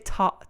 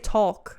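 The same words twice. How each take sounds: First: The L is silent, with an aw vowel. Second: The L sound is pronounced in the word. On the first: "I say it with the aw sound" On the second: "I don't say talk"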